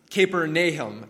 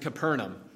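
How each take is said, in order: First: The name has a closer-to-native pronunciation. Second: The name has the common English pronunciation. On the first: The speaker calls it right. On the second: The speaker calls it wrong.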